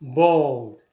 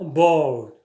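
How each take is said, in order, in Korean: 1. 부드럽고 울림이 있으며, L 소리가 끊기지 않고 부드러워요. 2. 부드럽고 울림이 있으며, L 소리가 끊기지 않고 부드러워요.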